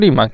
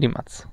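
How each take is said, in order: First: The name is said with English pronunciation. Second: The name is said with Croatian pronunciation. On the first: The speaker calls it wrong. "Po angielsku to Rimac" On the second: The speaker calls it right. "Po ich niemu wymawia się Rimac"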